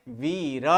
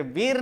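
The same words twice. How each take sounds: First: वीर as vee-ra, low and softer; right, final vowel sounded. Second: वीर as one syllable ending on r; wrong, vowel dropped. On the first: Teacher giving students the correct reading, full final vowel. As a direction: open वीर into two syllables with a final a. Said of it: "क्या है?". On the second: Teacher contrasting wrong reading for students, vowel dropped. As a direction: stop वीर dead on the r. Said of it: "वीर नहीं". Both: Shown as a demonstration.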